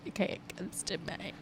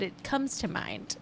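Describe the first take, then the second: First: Very soft, almost to yourself; muttered aside. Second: Said in the usual way. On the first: Real, not acted. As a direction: drop right down to a near-whisper. Repeats own remark as aside.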